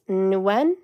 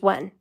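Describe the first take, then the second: First: The name starts with an N sound. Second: The name starts with a W sound. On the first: "with an N and the Y, which is how I'm pronouncing it" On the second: "or it's just when"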